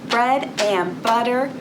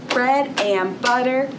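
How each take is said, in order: No difference in how they are said.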